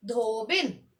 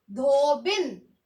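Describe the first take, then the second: First: धोबिन with a short i in बिन, not a long ई; short-i dhobin. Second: धोबिन said slowly with a short i, dho-bin; short-i dhobin. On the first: Teacher repeating धोबिन for the class, careful short i. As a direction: model धोबिन once more, short final i. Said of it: "आप इसे बोलेंगे भी ऐसे ही". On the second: Teacher showing students how to say धोबिन, slow and clear. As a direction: say धोबिन with a short clipped बिन ending. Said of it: "आप ऐसे ही बोलेंगे". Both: Shown as a demonstration.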